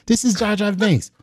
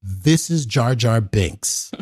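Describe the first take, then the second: First: The same words lifted into a high, light voice. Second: A slow, lowered plain read. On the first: Retelling the Jar Jar introduction in a high voice. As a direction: raise the pitch and keep it airy. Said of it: "high voice". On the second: George introducing the teller to Michael, slow and low. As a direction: say it slow and a bit low, matter-of-fact. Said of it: "and then he goes". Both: Retold or imitated.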